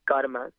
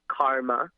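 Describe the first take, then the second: First: It is said with the original native pronunciation. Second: It is said with the usual American pronunciation. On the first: This is how the word is really pronounced. The speaker calls it right. "It's pronounced karma" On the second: This is how people in this country say it. The speaker calls it wrong. "in this country, you all have heard of it. It's uh, as karma"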